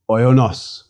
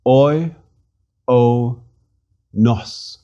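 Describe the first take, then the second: First: Said in the usual way. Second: Oi, o, nos slowly as three detached syllables. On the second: Shown as a demonstration. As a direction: sound out Oi, o, nos with a pause after each. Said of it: "Three syllables".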